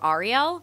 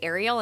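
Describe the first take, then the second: First: It sounds unlike the mermaid's name. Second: It sounds like the mermaid's name. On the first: This is how the person herself says her name. The speaker calls it right. "instead of Ariel" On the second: This is the common pronunciation people use. The speaker calls it wrong. "people say Ariel instead of"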